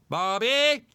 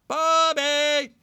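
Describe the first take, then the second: First: The pitch rises on the second syllable. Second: The pitch does not rise on the second syllable.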